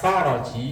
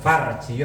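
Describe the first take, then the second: First: A vowel is said between the r and j. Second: No vowel is said between the r and j. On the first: It means a solution. The speaker calls it right. "Kalau dibaca Faraji itu artinya solusi" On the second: It names the female genitals. The speaker calls it wrong. "Kalau Farji roknya disukun"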